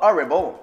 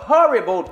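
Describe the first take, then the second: First: The word begins without any h sound. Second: The word begins with an audible h sound. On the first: The speaker calls it wrong. "pas horrible" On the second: The speaker calls it right. "ça prend un H horrible. On dit horrible"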